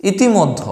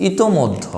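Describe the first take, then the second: First: ইতিমধ্য with i after t, i-ti-moddho; wrong exam form. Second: ইতোমধ্য with o after t, i-to-moddho; correct form. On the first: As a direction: sound a clear ti in ইতিমধ্য. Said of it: "আসলে ইতিমধ্য না". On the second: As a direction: sound a clear to in ইতোমধ্য. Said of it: "শব্দটা হচ্ছে". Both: Shown as a demonstration.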